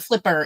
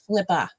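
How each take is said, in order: First: The final r sound is clearly pronounced. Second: The final r is dropped, ending in 'uh'. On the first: The speaker calls it wrong. "It's not flipper" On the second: The speaker calls it right. "It's like New England language"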